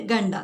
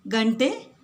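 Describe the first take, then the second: First: ഗണ്ട ending on a short അ instead of എ; Malayali mispronunciation. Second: ഗണ്ടെ with a retroflex ണ്ട and a clear final എ sound; correct Kannada pronunciation. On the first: Retold or imitated. Teacher imitates a Malayali housewife's mistake, wrong vowel at the end. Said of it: "pronunciation തെറ്റിയിട്ട് ഗണ്ട എന്നാണ് പറയുന്നത്". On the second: Shown as a demonstration. Teacher models the correct word for learners, careful pronunciation. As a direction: end ഗണ്ടെ on a crisp എ, not അ. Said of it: "ഈ വേർഡിൻ്റെ pronunciation ശ്രദ്ധിക്കുക".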